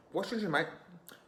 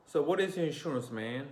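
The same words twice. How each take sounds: First: Put-on high British accent, last word breathed out; clipped London mate, pitched up. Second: Higher, fuller American accent. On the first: Repeating the UK line in a British accent. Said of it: "I was speaking like this in the accent". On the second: Shown as a demonstration. Showing viewers how Americans ask, in an American accent. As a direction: say it the American way, R sounded. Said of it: "that's how we speak in America".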